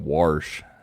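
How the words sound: The word is said with an r sound. "the Pittsburgh way is saying warsh"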